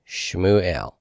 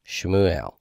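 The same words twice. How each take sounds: The two takes are said the same way.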